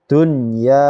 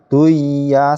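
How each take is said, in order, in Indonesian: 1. Bunyi n diucapkan jelas sebelum y. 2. Bunyi n hilang masuk ke y. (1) "jelas bunyi nun sukunnya" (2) "Duya salah ya"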